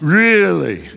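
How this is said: It is said with a sarcastic tone.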